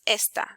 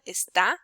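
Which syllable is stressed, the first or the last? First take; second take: first; last. First: The stress is on the first syllable. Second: The stress is on the last syllable. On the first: It is the demonstrative meaning this. "if it wouldn't have a tilde, then it would be pronounced esta" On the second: It is the verb form meaning he or she is. "the syllable with more accent, with more with a strength in pronunciation is the last one"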